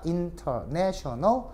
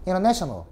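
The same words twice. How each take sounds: First: "International" stretched very slowly with a rising end; slow model pronunciation with a rise; slow drawn-out demo. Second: Said in the usual way. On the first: Shown as a demonstration. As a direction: drag out "International" syllable by syllable, lifting at the end. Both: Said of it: "복습한 겁니다".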